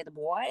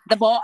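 First: Put-on "the boy" with a soft American Southern "boy", quiet and unsure; a half-hearted copy of a Southern "the boy"; failed Southern accent try. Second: Put-on "the boy" in a drawn Southern accent, louder and higher. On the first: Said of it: "he tried to teach me how to say". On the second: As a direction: nail the Southern "boy" the way the kid says it.

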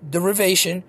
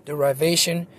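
First: "derivation" with a short i in the second syllable. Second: "derivation" with a long eye sound in the second syllable. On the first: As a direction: say "derivation" as deh-rih-VAY-shun. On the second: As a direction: say "derivation" as deh-rye-VAY-shun. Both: Shown as a demonstration. Tries two pronunciations of word.

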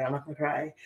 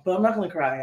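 First: Repeated quietly, voice softer, emotion creeping in; softer, close to tears. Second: Said in the usual way. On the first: Real, not acted. Reassuring herself over friend's death, softer and teary. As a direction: say it to herself, fighting back real tears. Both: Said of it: "I'm getting a little bit emotional".

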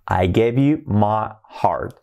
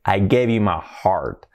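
First: "I gave you my heart" said slowly, "my" as "ma"; slow clear demo. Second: "I gave you my heart" whispered, slow; whispered demo. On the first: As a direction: spell the line out for learners. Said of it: "repeated demo line". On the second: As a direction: breathe the line to the class. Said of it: "whispered demo line". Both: Shown as a demonstration.

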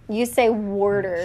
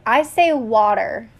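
First: "worder" with an R before the D; imitated pronunciation. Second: Said in the usual way. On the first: Showing partner how they say it, "worder" with an R. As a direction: copy "worder" with an inserted R.

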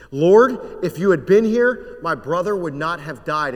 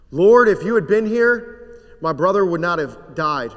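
First: Anguished plea. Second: Anguished plea repeated. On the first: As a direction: cry out the grief of a sister who lost her brother. Mary's grieving plea to Jesus. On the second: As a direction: throw the whole sorrow into Lord. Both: Acted.

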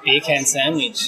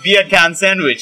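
First: Slow, word by word; slow careful. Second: Slow Jamaican-sounding "Beer can sandwich"; Jamaican accent. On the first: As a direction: say each word slowly and separately. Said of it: "So say". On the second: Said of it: "it sounds more Jamaican". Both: Shown as a demonstration.

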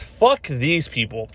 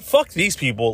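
First: Each word spelled out slowly, FUCK hit hardest; drawn-out declaration; slow, deliberate emphasis. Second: Said in the usual way. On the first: Shown as a demonstration. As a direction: lay down "Fuck these people" slowly, word by word, like a final verdict. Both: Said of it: "Let me just say this".

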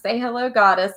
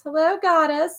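First: Raised-pitch quote of a friend's bit; higher, playful retelling; imitating Albie's prompt. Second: Very high-pitched mock goddess reply; squeaky-high imitation of a comic character; imitating Albie's goddess. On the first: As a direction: lightly mimic someone prompting a goddess to greet. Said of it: "He says". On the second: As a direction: mimic the friend's goddess bit way up high. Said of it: "And he goes".

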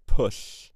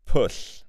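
First: 'Pwll' again, louder, with a hissed ll; emphatic Welsh 'Pwll' with an oo vowel; dictionary pronunciation. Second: 'Pwll' said as 'pool' ending in a hissed Welsh ll; slow, clear Welsh 'Pwll'; dictionary pronunciation. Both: Shown as a demonstration. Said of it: "syllable by syllable".

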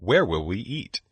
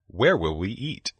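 The two takes are said the same way.

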